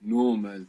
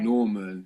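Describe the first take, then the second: The two takes are said the same way.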